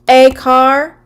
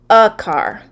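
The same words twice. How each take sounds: First: The article is said like the letter name. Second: The article is said with a short reduced vowel. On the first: The speaker calls it wrong. "if we see the A, we would say" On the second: The speaker calls it right. "it's actually pronounced"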